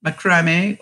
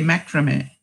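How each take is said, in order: First: Macrame with the stress on the second syllable; muh-KRAH-may, long "ah" in the middle; pronunciation option one. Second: Macrame with the stress on the first syllable; MACK-ruh-may, short unstressed middle; pronunciation option two. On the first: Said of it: "do they say number one". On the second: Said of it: "Which is two". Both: Shown as a demonstration.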